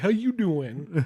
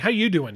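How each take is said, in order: First: It is said in an odd, exaggerated put-on voice. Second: It is said in a normal everyday voice. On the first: "You were like, ... It was so weird. ... You joeyed it" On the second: "I didn't say it how you said it last time"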